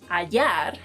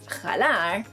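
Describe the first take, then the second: First: The word starts directly with a vowel. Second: The word starts with a breathy h sound. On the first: It means to find. The speaker calls it right. "means to find" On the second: It means to pull instead. The speaker calls it wrong. "that's wrong because the H is silent in Spanish"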